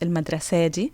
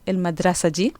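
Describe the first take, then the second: First: The noun's feminine ending is extended. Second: The noun's feminine ending is not extended. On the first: The speaker calls it wrong. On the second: The speaker calls it right. "we do not extend the ta marbuta. So we say"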